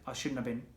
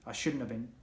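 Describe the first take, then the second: First: The words are contracted and run together. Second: The same.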